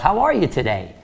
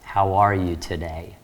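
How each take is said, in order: First: It is said in a warm, friendly tone. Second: It is said in a flat, dull tone. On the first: The caller seems like someone already known. The speaker calls it right. "And you know what Linda thinks? Do I know this guy?" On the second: The caller seems like an uninterested stranger. The speaker calls it wrong. "Probably not going to get a very positive response"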